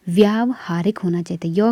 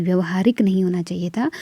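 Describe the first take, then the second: First: व्यावहारिक said with a long व्या, the correct form. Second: व्यवहारिक said with short व्य, the wrong form; व्यवहारिक without long a. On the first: (व्यावहारिक लंबे व्या के साथ) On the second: (व्यवहारिक छोटे व्य के साथ) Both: Shown as a demonstration. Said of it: "य के साथ आ की मात्रा".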